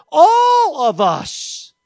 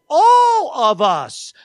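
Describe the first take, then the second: First: "All of us" drawn out slowly, a bit higher, each word weighted; slow emphatic "All of us". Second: "All of us" drawn out slowly, each word weighted; slow emphatic "All of us". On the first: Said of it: "MacArthur says". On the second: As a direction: lean hard on "All of us", slowly. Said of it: "but he says". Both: Retold or imitated.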